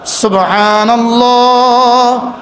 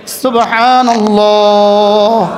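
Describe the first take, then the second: No difference in how they are said.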